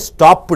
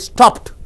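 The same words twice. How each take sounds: First: The ending is an extra syllable. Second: The word ends with a t, one syllable. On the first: The speaker calls it wrong. "You don't say stopped" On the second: The speaker calls it right. "you have to say stopped. T. It should end with t. So it is the one syllable"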